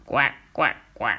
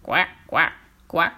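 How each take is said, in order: First: Low croaking frog voice, a bit deeper. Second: Low, croaking frog voice calling after them. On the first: Frog hopping after the pair, croaking. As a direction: croak out each quoi like a frog. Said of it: "une grenouille qui les poursuit". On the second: Frog calling after the old woman and the fool, croaking. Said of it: "une voix bizarre". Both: Acted.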